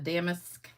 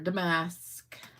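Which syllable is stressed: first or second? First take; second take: first; second. First: The stress is on the first syllable. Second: The stress is on the second syllable.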